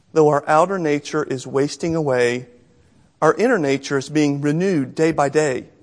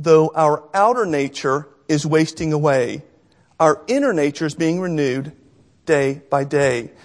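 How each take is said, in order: No difference in how they are said.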